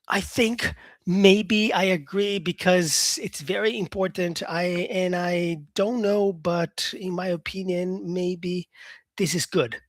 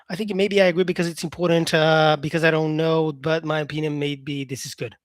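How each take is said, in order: First: It is said at a normal speed. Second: It is said fast.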